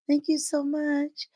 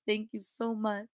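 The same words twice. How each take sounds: First: It is said in a little fake voice. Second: It is said in a normal voice.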